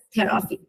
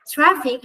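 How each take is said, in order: First: "traffic" with a vowel splitting t and r; Persian-style loanword pronunciation. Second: Said in the usual way. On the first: Shown as a demonstration. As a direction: say "traffic" as te-ra-fi, opening cluster broken up. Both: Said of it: "we would pronounce it as".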